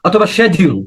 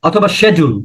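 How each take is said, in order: The two takes are said the same way.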